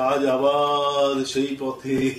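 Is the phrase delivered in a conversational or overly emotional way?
emotional. It is drawn out in an overly emotional way. It sounds like a sentimental performance, not real talk. The speaker calls it wrong.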